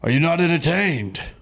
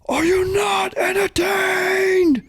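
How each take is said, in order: First: The line is delivered flat, with little energy. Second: The line is delivered with strong, forceful energy. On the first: This is how it was actually performed in the movie. "pretty underwhelming the way he delivered that line" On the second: This is how it was imagined. "the way that I always like read it in my, you know, just in my head"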